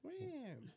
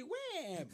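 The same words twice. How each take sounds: First: Wham said short and falling; punchy Wham. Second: Wham said higher with a sharp fall; punchy Wham. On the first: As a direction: say Wham like a sound effect hit. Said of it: "You should say "Wham". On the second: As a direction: Wham punched out like a door slam. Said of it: "You should say". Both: Shown as a demonstration.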